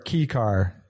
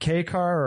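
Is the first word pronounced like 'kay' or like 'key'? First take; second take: key; kay. First: The first word rhymes with 'see'. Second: The first word rhymes with 'day'. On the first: "K car or key car?" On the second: "K car or key car?"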